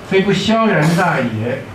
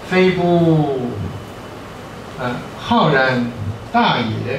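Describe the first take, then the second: First: The key word starts with the syllable xiao. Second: The key word starts with the syllable hao. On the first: The speaker calls it right. "是应该念萧" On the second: The speaker calls it wrong. "我查过以前是念浩"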